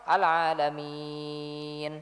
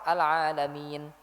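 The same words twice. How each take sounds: First: The long vowel is held for six beats. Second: The long vowel is held for two beats. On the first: "enam harokat" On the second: "kalau dua harokat"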